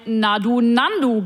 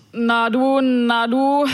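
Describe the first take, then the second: First: Said in the usual way. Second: Mumbled and slurred, running the words of "Na du, na du" together; slurred drunk greeting. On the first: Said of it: "Es könnte aber auch ein". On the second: Retold or imitated. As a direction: slur "Na du, na du" like a drunk on the night bus. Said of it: "lallte mir ein Daunenjackenträger". (gelallt, "Na du, na du" verschliffen wie ein Betrunkener)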